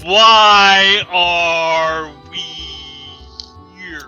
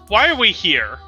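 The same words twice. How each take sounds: First: It is said louder and more slowly. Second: It is said at normal loudness and speed.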